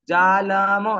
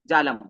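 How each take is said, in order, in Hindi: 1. अंतिम m पूरा बोला जाता है और थोड़ा खिंचता है। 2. अंतिम m पर ज़ोर नहीं होता और वह तुरंत छोड़ दिया जाता है। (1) "जालम ऐसे नहीं बोलूंगा" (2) "मैं म को बिल्कुल भी स्ट्रेस नहीं करूंगा, बोलते ही छोड़ दूंगा ... तुरंत छोड़ दूंगा"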